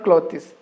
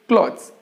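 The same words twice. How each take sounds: First: The word is said with two syllables. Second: The word is said with one syllable. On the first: The speaker calls it wrong. "It's not clothes" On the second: The speaker calls it right. "it's pronounced as only one syllable"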